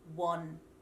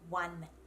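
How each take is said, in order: First: The word is said with an o vowel. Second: The word is said with an ah vowel. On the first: The speaker calls it wrong. "we don't say won" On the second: The speaker calls it right. "we actually pronounce that word with an ah sound"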